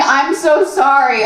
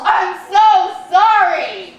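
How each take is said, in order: First: Slow, subdued retold apology; repeated mock apology. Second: High, drawn-out mock wail; mock anguished yell. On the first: Boyfriend still apologizing up at his hands, mock dazed. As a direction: imitate a stuck, drawn-out apology without yelling. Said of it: "Still saying". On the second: Boyfriend covers his face and yells, mock anguish. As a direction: imitate a guilt-stricken yell, stretching each word. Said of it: "covers his face and yells".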